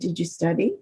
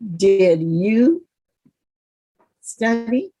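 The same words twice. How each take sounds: First: It is said quickly, without a pause. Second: It is said slower, with a pause. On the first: "A little faster than" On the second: "So a pause, emphasis on the word"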